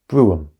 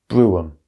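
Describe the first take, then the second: No difference in how they are said.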